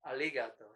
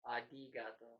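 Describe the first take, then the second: First: The middle consonant sounds like an L. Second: The middle consonant sounds like a D. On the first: "Some people do the L sound" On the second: "it almost sounds like a D in some cases"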